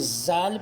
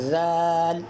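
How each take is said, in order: First: The first sound is a plain z. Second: The first sound has the tongue touching the teeth. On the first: The speaker calls it wrong. "अगर कोई ज़ाल पढ़े तो ये गलत है" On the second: The speaker calls it right. "यूँ पढ़ेंगे ज़ाल"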